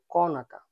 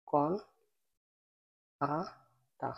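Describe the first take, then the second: First: Said in the usual way. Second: Kন ... আতা said apart, slowly; teacher drilling কন আতা syllable by syllable. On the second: Shown as a demonstration. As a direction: break কন আতা into slow separate parts. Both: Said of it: "কন আতা মানে".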